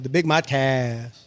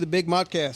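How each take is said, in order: First: The syllable 'cast' is stretched out long. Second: The syllable 'cast' is kept short. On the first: The speaker calls it wrong. "it sounds like I say the Big Modcast" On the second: The speaker calls it right. "I'm trying to shorten it up a little bit"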